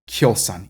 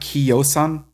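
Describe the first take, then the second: First: The i glides straight into o as y. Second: The i is a separate syllable before o. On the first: The speaker calls it right. "but Kjosan" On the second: The speaker calls it wrong. "So it's not Kiosan"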